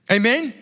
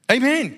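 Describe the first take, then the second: First: Amen? asked with a rising tune; questioning Amen. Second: Amen. said higher with a falling tune; affirming Amen. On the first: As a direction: ask the crowd Amen? going up at the end. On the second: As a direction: answer yourself, Amen. landing firmly down. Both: Shown as a demonstration.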